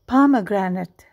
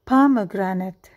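The two takes are said the same way.

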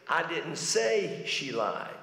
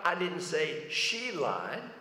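First: The stress is on the word say. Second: The stress is on the word she.

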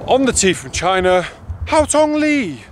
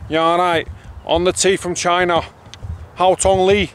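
First: It is said in a posh English accent. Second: It is said in a broad Manchester accent.

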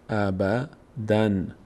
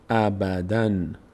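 First: The word ends with an n sound. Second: The same.

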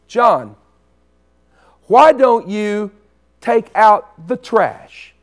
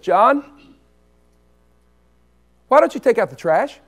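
First: It is slow and stern, falling at the end. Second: It is quick and light, rising at the end. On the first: The task must be done right now. "What if my mama had said the same words like this?" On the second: The task can be done sometime later. "By saying it fast and going up, I know it's suggestive"

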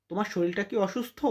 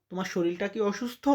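Both takes have the same delivery.

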